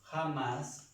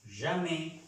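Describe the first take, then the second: First: Said in the usual way. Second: Jamais, ʒame, not Spanish jamás; French jamais. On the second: Shown as a demonstration. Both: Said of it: "uno no pronuncia jamás".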